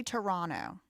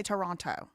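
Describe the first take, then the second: First: "Toronto" with the middle t dropped, like tor-ON-no; own pronunciation. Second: "Toronto" with the second t clearly sounded, tor-ON-toe; other pronunciation. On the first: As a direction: say "Toronto" without the second t. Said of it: "How do I say this word?". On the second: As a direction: pronounce the t in "Toronto". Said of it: "Some people say Toronto". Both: Shown as a demonstration.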